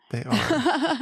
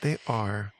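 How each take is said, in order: First: A heartfelt, much higher second "They are."; high emphatic agreement. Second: Said in the usual way. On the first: Real, not acted. Agreeing, then repeating.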